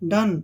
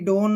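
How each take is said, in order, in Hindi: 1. स्वर 'uh' जैसा बोला जाता है। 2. स्वर 'oh' जैसा बोला जाता है।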